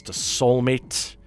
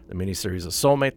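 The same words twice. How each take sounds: First: The Soulmate said slowly and stretched out; drawn-out title. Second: The miniseries The Soulmate said fast and a little lower as a fix; quick correction. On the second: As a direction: rattle off The Soulmate again quickly. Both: Real, not acted. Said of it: "get the words in the right order".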